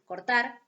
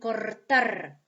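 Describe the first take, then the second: First: The first r is a single quick tap. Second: The first r is a rolled, repeated trill. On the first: "como una vibrante simple" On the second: "como una vibrante múltiple"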